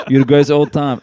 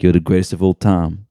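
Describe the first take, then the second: First: a rapper impression. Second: a rapper's drawl. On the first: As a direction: imitate a rapper, with a laugh. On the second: Retold or imitated. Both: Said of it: "You know how he talks like that?".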